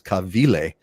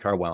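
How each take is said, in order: First: The name is said with a Hawaiian pronunciation. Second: The name is said with an English pronunciation.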